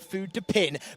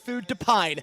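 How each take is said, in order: First: The last syllable sounds like 'pin'. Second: The last syllable sounds like 'pine'. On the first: The speaker calls it wrong. "not Food de Pin" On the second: The speaker calls it right. "It's Food de Pine"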